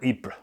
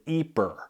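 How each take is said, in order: First: The name is said with a French pronunciation. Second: The name is said like 'eeper', Flemish style. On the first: "in French is, I think, pronounced Ypres or Ypres" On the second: "they pronounce it Ypres, like E E P E R"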